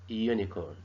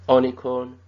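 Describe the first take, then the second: First: The first vowel sounds like 'you'. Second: The first vowel sounds like 'uh'. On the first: The speaker calls it right. "but it is a unicorn" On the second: The speaker calls it wrong. "It is not unicorn"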